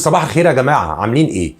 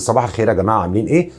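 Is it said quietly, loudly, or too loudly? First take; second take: loudly; quietly. First: It is said in a louder, confident voice. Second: It is said in a weak, quiet voice.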